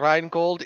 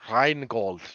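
First: The name is said in a plain, ordinary way. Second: The name is said in a grand, pompous way.

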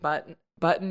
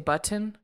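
First: The middle T is swallowed, not fully released. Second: The middle T is clearly and fully released. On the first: "instead of saying button" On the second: "Every T was, like, pronunciated?"

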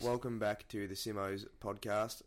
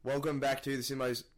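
First: It is said flatly, without energy. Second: It is said loudly and excitedly.

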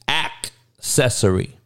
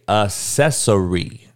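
First: The first c is said like a k. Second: The first c is said like an s. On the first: The speaker calls it right. "Act like it's a K in there instead of a C" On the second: The speaker calls it wrong. "Do not say it with S's pronunciation"

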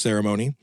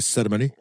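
First: It is said with an American pronunciation. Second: It is said with a London pronunciation.

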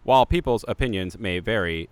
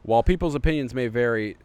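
First: It is read in a put-on robot voice. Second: It is read in his normal voice.

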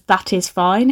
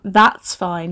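First: "That is" is said as two full words. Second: "That is" is contracted to one syllable. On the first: It sounds posh and proper. "she says, ... so posh" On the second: It sounds ordinary and casual. "instead of saying"

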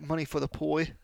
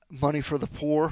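First: The last word is said childishly as 'poi'. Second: The last word is said plainly as 'poor'.

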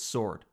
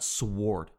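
First: The word is said without a W sound. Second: The word is said with a W sound. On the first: The speaker calls it right. "I'm pretty sure it's sword" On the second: The speaker calls it wrong. "not sword"

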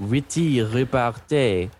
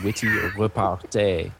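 First: It is said in a put-on French accent. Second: It is said in the speaker's plain accent.

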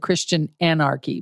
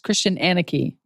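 First: It is said in an American accent. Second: It is said in an Australian accent.

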